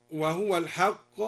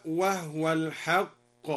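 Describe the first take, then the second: First: "وهو" as wahuwa; standard reading. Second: "وهو" as wahwa; silent ha. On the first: Teacher quoting the standard reading, plain. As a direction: voice the ha with damma. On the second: Teacher demonstrates al-Duri's silent ha, slow. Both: Shown as a demonstration. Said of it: "أسكن الهاء".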